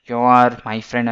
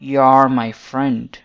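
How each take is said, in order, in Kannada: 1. 'You are' ಅನ್ನು ಎರಡು ಪೂರ್ಣ ಪದಗಳಾಗಿ ಹೇಳಲಾಗುತ್ತದೆ. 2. 'You are' ಒಂದೇ ಉಚ್ಚಾರಾಂಶವಾಗಿ ಸೇರಿಕೊಳ್ಳುತ್ತದೆ.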